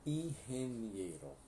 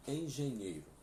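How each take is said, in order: First: Engenheiro said like ingeniero, throaty H for the G, slow; slow Spanish model word; Spanish pronunciation. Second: Said in the usual way. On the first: Shown as a demonstration. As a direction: drawl out the Spanish ihenieɾo slowly. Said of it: "o G vai ter som de R".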